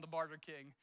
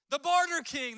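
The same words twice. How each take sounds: First: Said in the usual way. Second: "barter king" punched out loud and high; stress on barter. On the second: Shown as a demonstration. Preacher coins a nickname for King Saul, loud stressed. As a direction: hit "barter" hard, a nickname. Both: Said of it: "that's what I'm gonna call him".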